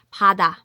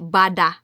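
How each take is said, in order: First: It starts with a soft P, near a B. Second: It starts with a full, voiced B sound. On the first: The speaker calls it right. "Di po i-gahi ang P, basta kay pada. I-soft lang siya" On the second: The speaker calls it wrong. "Dili bada"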